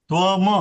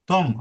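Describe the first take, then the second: First: The final m is followed by a full vowel. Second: The final m is cut short without a vowel. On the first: The speaker calls it wrong. "असं म्हणत नाही" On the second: The speaker calls it right. "असं म्हटलं जातं"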